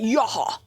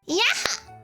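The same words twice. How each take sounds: First: It is said in a very deep voice. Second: It is said in a higher, normal voice.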